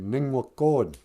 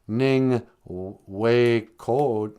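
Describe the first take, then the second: First: The middle vowel sounds like 'ah'. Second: The middle vowel sounds like 'ay'. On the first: The speaker calls it right. "You say Ning Wa Cod" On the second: The speaker calls it wrong. "So you wouldn't say Ning Wei Cod"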